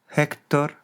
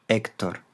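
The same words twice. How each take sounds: First: "Héctor" begun with a Spanish J sound, pitched higher; Greek aspirated H. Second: Said in the usual way. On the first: Shown as a demonstration. Teacher giving the Greek name, aspirated H in "Héctor". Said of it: "una aspiración leve en latín". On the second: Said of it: "Todos ellos con H inicial".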